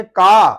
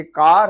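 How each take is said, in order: First: का loud, open vowel with no R; silent R, British. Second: कार with the final R pronounced; sounded R. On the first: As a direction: say का for "car", dropping the R. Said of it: "इसको कहेंगे का". (का, आर के बिना ज़ोर से) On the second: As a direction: say कार, closing on an R. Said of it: "letter आर में". (कार में आर की आवाज़ के साथ) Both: Shown as a demonstration.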